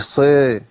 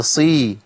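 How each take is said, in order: First: صي slackened toward a dull "sey"; wrong vowel. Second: صي with a full i; clear kasra. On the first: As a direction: blur the ee of صي into a loose e. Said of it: "مش صي". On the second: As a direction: drop the jaw for a clean ee in صي. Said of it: "يعني ضعيفة". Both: Shown as a demonstration.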